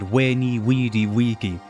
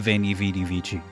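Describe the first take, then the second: First: It is said in Classical pronunciation. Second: It is said in Ecclesiastical pronunciation. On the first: The speaker calls it right. "He said Veni Vidi Vici" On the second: The speaker calls it wrong. "He didn't say Veni Vidi Vici"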